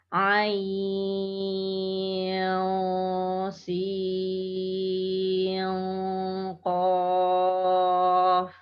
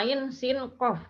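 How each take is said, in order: First: The n sounds are hidden with a nasal hum. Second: The n sounds are pronounced clearly without nasal hum. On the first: The speaker calls it right. "membacanya ikhfa, mendengung" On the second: The speaker calls it wrong. "jangan dibaca izhar semua"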